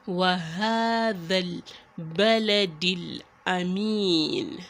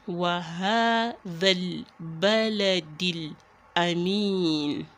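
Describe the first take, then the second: No difference in how they are said.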